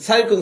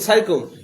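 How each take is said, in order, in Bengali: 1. শুভেচ্ছাটি ছোট করে একটা অস্পষ্ট গুনগুন শব্দে বলা হয়। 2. শুভেচ্ছাটি ছোট করে একটা অস্পষ্ট গুনগুন শব্দে বলা হয়।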